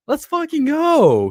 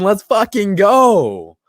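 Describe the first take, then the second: First: Pitched way up, drawn-out victory yell; higher hype shout. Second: Slow, loud drawn-out hype yell; hype shout. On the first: Streamer celebrates Watson staying, high drawn-out yell. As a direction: let it soar even higher. Hypes Texans keeping Deshaun Watson. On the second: Streamer hyping his chat that Watson is still a Texan, slow loud cheer. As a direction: stretch it out like a victory cheer. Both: Real, not acted.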